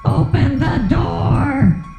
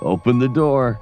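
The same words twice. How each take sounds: First: It is howled in a very high voice. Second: It is said in a deep, low voice.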